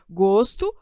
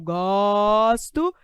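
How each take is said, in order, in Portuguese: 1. A vogal o tônica é fechada. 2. A vogal o tônica é aberta. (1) "Fechado, som fechado" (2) "E aqui é o bico aberto"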